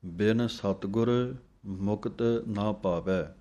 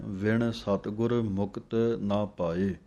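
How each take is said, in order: First: ਬਿਨ with a plain b and a dental n, ben; reading with ਬਿਨ. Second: ਵਿਣ with a v sound and a retroflex ṇ, veṇ; reading with ਵਿਣ. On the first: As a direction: start with ਬਿਨ, a b sound. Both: Shown as a demonstration. Teacher contrasting two similar lines for students. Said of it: "ਇਸ ਫਰਕ ਦਾ ਆਪ ਜੀ ਨੇ ਧਿਆਨ ਰੱਖ ਕੇ ਬੋਲਣਾ ਹੈ".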